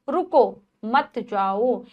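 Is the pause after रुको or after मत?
after रुको. There is a pause after रुको.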